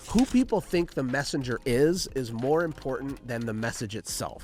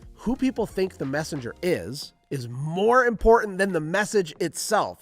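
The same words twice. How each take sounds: First: It is said at normal speed. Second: It is said more slowly.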